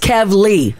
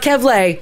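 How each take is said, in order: First: The last syllable sounds like 'lee'. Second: The last syllable sounds like 'lay'. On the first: The speaker calls it right. "it's Kevly" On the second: The speaker calls it wrong. "It's not Kevlay"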